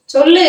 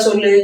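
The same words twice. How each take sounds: First: Insistent demand. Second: Said in the usual way. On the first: Acted. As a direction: repeat it sharper with a lifted ending. Wife pressing husband to answer.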